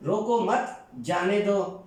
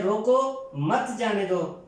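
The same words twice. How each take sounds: First: Slow, روکو مت together, break, then جانے دو; pause after مت. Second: Slow, روکو alone, break, then مت جانے دو; pause after روکو. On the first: Teacher contrasts two meanings, slowly pausing after مت to let him go. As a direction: keep روکو مت as one unit and stop before جانے دو. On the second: Teacher contrasts two meanings, slowly pausing after روکو to stop him. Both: Shown as a demonstration. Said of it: "یہ دو الگ الگ مفاہیم".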